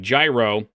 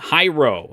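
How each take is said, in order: First: The word begins with a hard G sound. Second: The word begins with an H sound.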